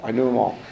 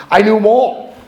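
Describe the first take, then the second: First: Said in the usual way. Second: High, loud proud boast; emphatic boast. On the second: Real, not acted. Speaker bragging to AA group, loud and proud. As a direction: brag it out to the room. Boasting about liquor stores.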